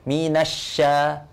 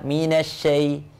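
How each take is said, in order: First: The vowel after 'sy' is a wide, open 'a'. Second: The vowel after 'sy' is pulled back, e-like. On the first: The speaker calls it right. "ke bawah" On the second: The speaker calls it wrong. "dibukanya ke mana? Ke belakang"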